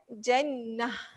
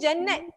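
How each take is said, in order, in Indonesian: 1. Kata ini berakhir dengan bunyi h. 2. Kata ini berakhir dengan bunyi t.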